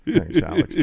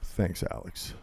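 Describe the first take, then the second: First: Said in the usual way. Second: Whispered thanks. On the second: Shown as a demonstration.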